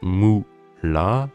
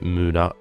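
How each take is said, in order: First: The middle consonant sounds like an l. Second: The middle consonant sounds like an r. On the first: The speaker calls it wrong. "c'est pas moula" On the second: The speaker calls it right. "c'est mura"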